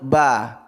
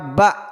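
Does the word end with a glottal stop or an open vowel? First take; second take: open vowel; glottal stop. First: The word ends on an open vowel. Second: The word ends with a glottal stop. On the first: This is the recitation scholars' way of naming the letter. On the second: This is the grammarians' way of naming the letter.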